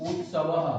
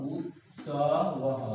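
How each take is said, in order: First: Said in the usual way. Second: उत्सवः spelled out slowly, each syllable stretched, falling at the end; slow, drawn-out pronunciation. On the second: Shown as a demonstration. Teacher sounding out उत्सवः slowly for students, drawn out.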